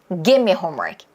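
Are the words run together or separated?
run together. The words run together as one block. The speaker calls it right. "통으로"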